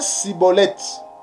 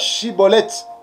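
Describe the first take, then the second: First: The word begins with an 's' sound. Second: The word begins with a 'sh' sound. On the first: The speaker is an outsider to the group. The speaker calls it wrong. "Et ils prononçaient Siboleth" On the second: The speaker belongs to the group. The speaker calls it right. "ils avaient des difficultés pour prononcer eh, le mot Chiboleth"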